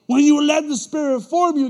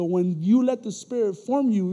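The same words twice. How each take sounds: First: Repeated line, louder and higher; louder preaching. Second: Said in the usual way. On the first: Shown as a demonstration. Preacher repeating the point to the congregation, loud. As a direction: hit it hard the second time. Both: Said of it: "repeated louder".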